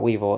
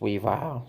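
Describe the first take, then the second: First: The name ends with a short 'vil' sound. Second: The name ends with a long 'vile' sound. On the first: The speaker calls it wrong. "his name is not Weevil" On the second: The speaker calls it right. "it's pronounced Weavile"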